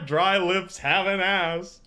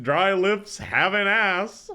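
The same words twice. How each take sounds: First: Slow, flat robotic reading; text-to-speech voice. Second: Slow, breaking into laughter; laughing. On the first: Retold or imitated. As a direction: read it like a text-to-speech program. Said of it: "He says it like a text-to-speech program". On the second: Real, not acted. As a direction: say it through helpless laughter. Repeating the line while laughing.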